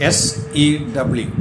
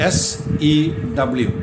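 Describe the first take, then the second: The two takes are said the same way.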